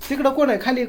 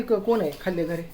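First: Raised, louder call across the house. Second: Said in the usual way. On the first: Real, not acted. Father calls to family downstairs, raised and loud.

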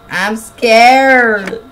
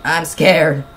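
First: Louder, higher scared whine. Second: Said in the usual way. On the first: Real, not acted.

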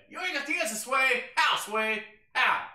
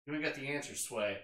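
First: High, loud [name] rant; shouted meme quote. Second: Said in the usual way. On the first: Retold or imitated. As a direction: yell it like a famous outburst. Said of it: "[name] meme shouted". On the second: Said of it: "quoting [name] meme, first take".

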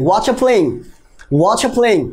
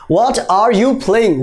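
First: "What are playing?" as watcha playing; contracted watcha. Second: "What are you playing?" slow, separated; each word on its own; slow full form. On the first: Teacher models the contraction. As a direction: run it together fast. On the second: Teacher gives the long form. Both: Shown as a demonstration.

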